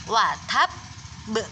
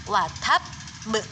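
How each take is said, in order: No difference in how they are said.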